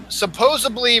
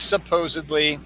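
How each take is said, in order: First: Supposedly said as "suh-POZE-uh-blee"; B instead of D in supposedly; mispronunciation. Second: Supposedly as "suh-POZE-id-lee"; supposedly with a clear D, no B; correct pronunciation. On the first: Host comparing the two forms once more, mispronounced. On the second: Host comparing the two forms once more, correct pronunciation. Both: Shown as a demonstration. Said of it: "it is supposedly".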